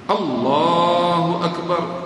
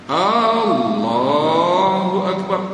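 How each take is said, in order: First: The opening A vowel is short. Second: The opening A vowel is long. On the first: God is the greatest. The speaker calls it right. "Allah Maha Besar" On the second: It asks whether God is the greatest. The speaker calls it wrong. "adakah Allah Maha Besar?"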